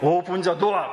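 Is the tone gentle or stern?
stern. It is said sternly, like a command.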